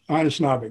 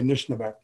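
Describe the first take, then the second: First: The word is said with all its vowels. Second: The word is said with one vowel dropped. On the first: This is how the speaker's community says it. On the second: This is how another community says it.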